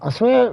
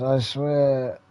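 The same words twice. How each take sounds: First: Sudden high, loud outburst of frustration; frustrated exclamation. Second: Said in the usual way. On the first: Real, not acted. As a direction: blurt it out high and loud, exasperated. Frustrated at the game.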